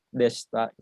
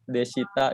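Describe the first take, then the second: First: The vowel i after the sh sound is missing. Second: The vowel i after the sh sound is heard. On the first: "i-nya hilang" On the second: "desita itu dibacanya desta"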